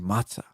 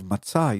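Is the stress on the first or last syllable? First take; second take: first; last. First: The stress is on the first syllable. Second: The stress is on the last syllable. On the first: This is how it is said in the US, likely from Yiddish. The speaker calls it wrong. "emphasize the beginning of the word" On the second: This is how it is said in proper Hebrew. The speaker calls it right. "instead of the answer"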